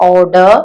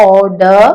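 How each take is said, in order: Both takes have the same delivery.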